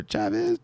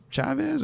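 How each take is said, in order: First: "Chavez" starting with a hard ch sound. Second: "Chavez" starting with a soft sh sound. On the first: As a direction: say "Chavez" as CHAV-iz. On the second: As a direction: say "Chavez" as SHAV-iz. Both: Shown as a demonstration. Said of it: "I don't know if it's Chavez or Chavez".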